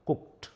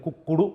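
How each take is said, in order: First: The word ends in a short t sound. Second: The word ends with an extra vowel syllable. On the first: The speaker calls it right. "పలికేటప్పుడు టీ పలుకుతారు" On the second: The speaker calls it wrong. "దీన్ని కుక్కుడు అనకూడదు"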